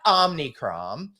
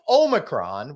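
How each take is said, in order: First: An extra n sound comes before the c. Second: No n sound comes before the c. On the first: The speaker calls it wrong. "It's not Omnicron" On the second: The speaker calls it right. "It's Omicron, which is a Greek letter"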